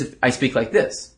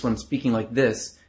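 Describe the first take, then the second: First: Slightly raised throaty banter voice. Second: Chest-resonant seduction voice. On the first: Coach shows what carries less in a club, banter voice. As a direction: push it up into the throat. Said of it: "than it is if I speak like this". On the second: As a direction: speak from the chest to draw them in. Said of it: "hear my voice when I'm speaking like this". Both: Shown as a demonstration.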